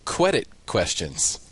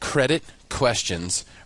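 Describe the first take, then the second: First: Run together quickly, sounding like 'quedit questions'. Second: Said slowly with a pause and a clear 'cr'. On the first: The speaker calls it wrong. "I say credit questions" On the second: The speaker calls it right. "I don't pause the way I just did to say it slowly"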